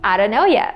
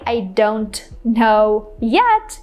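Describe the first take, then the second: First: The words run together in a reduced way. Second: Each word is said fully and separately. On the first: "we can just say" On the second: "instead of saying"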